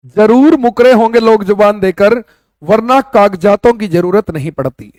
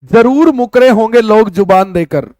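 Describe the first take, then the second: First: लेखक की पंक्ति को "जरूर" पर ज़ोर देकर, सुनाने के अंदाज़ में दोहराएँ; "जरूर" को उठाकर, ठहर-ठहर कर शेर की तरह पढ़ना; savoured couplet recital. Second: Reading a couplet aloud. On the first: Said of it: "कितनी बेहतरीन और गहरी बात लिखी है". ("जरूर" पर ज़ोर देकर शायराना अंदाज़ में) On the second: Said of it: "देखो क्या लिखता है लेखक". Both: Shown as a demonstration.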